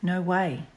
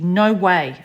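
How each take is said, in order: First: It is said in a caring, protective tone. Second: It is said in a forceful, pushing tone. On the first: The speaker wants to protect the listener and be trusted. "trying to protect you, and I want you to trust me" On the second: The speaker is using authority to push the listener. "I'm pushing you into it"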